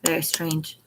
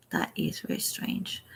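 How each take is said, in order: First: Said in the usual way. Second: Breathy whispered repeat, much softer; a hushed echo of very strange. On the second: Shown as a demonstration. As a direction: whisper it like a secret.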